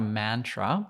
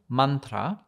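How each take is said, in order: First: It is said the common anglicized way. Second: It is said the original Sanskrit way. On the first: The speaker calls it wrong. "which is not a mantra" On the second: The speaker calls it right.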